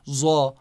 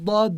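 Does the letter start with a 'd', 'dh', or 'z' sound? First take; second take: z; d. First: The letter starts with a 'z' sound. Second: The letter starts with a heavy 'd' sound. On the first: The speaker calls it wrong. "for Dad I say Za" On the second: The speaker calls it right. "Dad is Dad"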